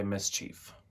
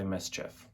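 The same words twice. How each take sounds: First: "mischief" said as MIS-cheef; American-attributed long ee. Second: "mischief" said as MIS-chiff; British-attributed short i. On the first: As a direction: end "mischief" with long ee, like "chief". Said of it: "In America, people say mischief". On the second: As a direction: end "mischief" with short i, like "whiff". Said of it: "much like the Brits". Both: Shown as a demonstration.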